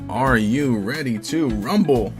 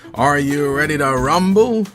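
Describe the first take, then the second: First: It is said weakly, with little energy. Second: It is said loudly, with lots of energy.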